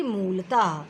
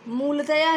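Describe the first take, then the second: First: मूलतः ending on open "taah", no "ya"; correct visarga form. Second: मूलतया ending in a clear "-ya"; wrong ending. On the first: Teacher correcting a visarga error, मूलतः without "ya". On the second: Teacher citing the visarga error, मूलतया with "-ya". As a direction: say मूलतया with "ya" in place of the breath ending. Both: Shown as a demonstration. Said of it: "नहीं बल्कि".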